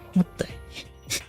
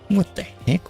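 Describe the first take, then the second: First: It is said flatly, without much drama. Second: It is said with more dramatic energy. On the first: The speaker calls it wrong. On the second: The speaker calls it right.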